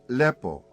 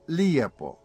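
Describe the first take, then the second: First: The word has a plain e vowel, two syllables. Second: The word has an ije sequence, three syllables. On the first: "Beautiful in Ikavian is lepo" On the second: "In Iekavian, it is lijepo"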